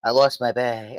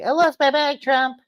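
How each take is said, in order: First: Lightly put-on voice at ordinary pitch; mock confession to the boss; confessing secretary. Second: Very high mock wail; whining secretary. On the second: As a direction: whine it to the boss in a squeaky put-on voice. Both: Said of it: "she's gotta go to Trump".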